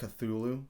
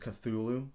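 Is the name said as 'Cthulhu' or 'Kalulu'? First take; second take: Cthulhu; Cthulhu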